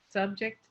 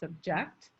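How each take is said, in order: First: The word carries the stress pattern of the noun. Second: The word carries the stress pattern of the verb. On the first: It names a thing. "the noun" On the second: It names an action. "the verb"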